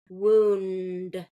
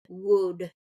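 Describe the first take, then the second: First: The N sound before the final D is present. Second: The N sound before the final D is dropped. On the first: The speaker calls it right. "We got to get that N in there" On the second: The speaker calls it wrong. "I'll hear that N dropped and it just sounds like wood"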